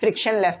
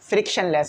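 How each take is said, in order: First: An extra n sound comes before less. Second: It is said plainly as frictionless, without extra n. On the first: The speaker calls it wrong. "इसे एन लगा के पढ़ रहा होता हूँ" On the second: The speaker calls it right. "फ्रिक्शन लेस होता है"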